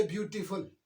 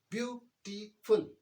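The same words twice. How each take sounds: First: Said in the usual way. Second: ब्यूटीफुल said slowly, broken into its three syllables; split into syllables. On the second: Shown as a demonstration. Teacher showing students the syllables of ब्यूटीफुल, slow and broken apart. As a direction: draw out ब्यूटीफुल one syllable at a time. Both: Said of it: "तीन हिज्जे इसके हो गए".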